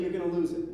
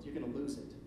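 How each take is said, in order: First: "lose" pressed louder as the verdict; emphatic. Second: Softer, hushed quoting of Jesus; quoted softly. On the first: Preacher driving home the lesson to listeners, emphatic. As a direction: lean hard on "lose". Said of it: "But inevitably". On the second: Preacher quoting Jesus to the congregation, hushed. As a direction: let the warning drop low and gentle. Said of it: "he goes on to say". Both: Shown as a demonstration.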